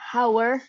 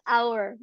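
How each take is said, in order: First: The word begins with an audible h sound. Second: The word begins with no h sound. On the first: The speaker calls it wrong. "So it's not hour" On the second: The speaker calls it right. "The H is silent"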